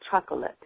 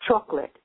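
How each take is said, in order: First: The middle of the word is clearly pronounced. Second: The middle of the word is slurred. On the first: The speaker calls it right. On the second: The speaker calls it wrong.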